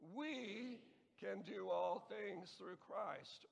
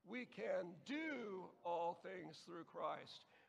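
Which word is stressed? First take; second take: We; do. First: The word "we" is stressed. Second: The word "do" is stressed. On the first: "emphasize the first word the first time" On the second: "and so on"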